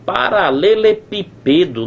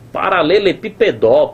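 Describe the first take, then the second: First: The stress falls on the second-to-last syllable. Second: The stress falls on the final syllable. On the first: "Ou tá na penúltima, mas aí ficaria paralelepípedo" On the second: "a sílaba tônica ou tá aqui na última sílaba, mas aí na última sílaba não rola"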